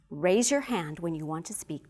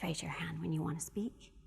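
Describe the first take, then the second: First: It is said in a strong, firm voice. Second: It is said in an ordinary, everyday voice. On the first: The request is expected to be followed. "here's a demonstration of strong voice" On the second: The request is only somewhat likely to be followed. "let's do a regular voice"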